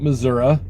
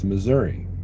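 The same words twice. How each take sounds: First: The word ends with an "uh" sound. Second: The word ends with an "ee" sound. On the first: The speaker calls it wrong. "Some people call it Missouri. I do not do that because there's no A on the end of it" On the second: The speaker calls it right. "so it's Missouri"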